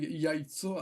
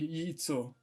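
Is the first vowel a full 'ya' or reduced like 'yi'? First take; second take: full; reduced. First: The first vowel is a full 'ya' sound. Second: The first vowel is reduced, like 'yi'. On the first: The speaker calls it wrong. "I'm not saying яйцо" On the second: The speaker calls it right. "I'm saying яйцо, ... the ya is going to be pronounced like a y"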